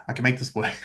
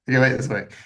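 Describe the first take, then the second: First: Said in the usual way. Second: Laughing. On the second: Retold or imitated. Stubborn self-talk, said twice.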